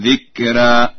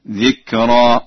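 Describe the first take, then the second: First: Heavy, full r in ذكرا; tafkhim. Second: Light, thin r in ذكرا; tarqiq. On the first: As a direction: thicken the ر of ذكرا. (تفخيم راء «ذكرا») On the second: (ترقيق راء «ذكرا») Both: Shown as a demonstration. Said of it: "التفخيم والترقيق".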